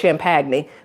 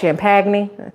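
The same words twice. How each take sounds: First: Champagne is said with a standard, spelled-out pronunciation. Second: Champagne is said with a Southern US pronunciation. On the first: "If you say it like it's spelled" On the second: "that's how you say it here in the South"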